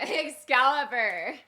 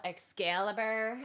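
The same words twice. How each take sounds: First: Drawn-out, higher test run; half-hearted slow battle cry; battle cry attempt. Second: Lightly voiced valley girl drawl; slow, questioning valley-girl take. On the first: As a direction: stretch out the name, holding back the yell. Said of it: "big battle cry yell". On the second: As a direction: draw it out slowly like a valley girl. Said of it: "like a valley whack girl". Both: Shown as a demonstration.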